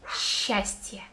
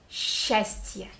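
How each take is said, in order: First: Счастье whispered as shastye; sh start. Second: Счастье breathed, starting with sh, shastye; сч read as one sh in счастье. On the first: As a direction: breathe счастье. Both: Shown as a demonstration. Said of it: "like one letter sh".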